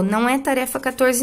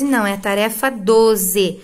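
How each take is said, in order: First: The wrong number quatorze marked as the mistake; stress on quatorze. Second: Doze said slower and firmer as the right number; stress on doze. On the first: (ênfase em quatorze, o número errado) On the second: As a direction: correct it, leaning on doze. (ênfase corretiva em doze) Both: Shown as a demonstration.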